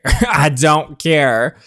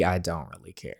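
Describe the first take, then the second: First: Slow, louder, laughing through it; laughing dismissal. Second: Said in the usual way. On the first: Real, not acted. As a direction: shrug it off while laughing.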